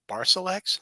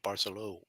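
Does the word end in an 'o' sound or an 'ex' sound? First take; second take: ex; o. First: The word ends with an 'ex' sound. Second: The word ends with an 'o' sound. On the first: The speaker calls it wrong. "not E X" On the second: The speaker calls it right. "It's an O sound"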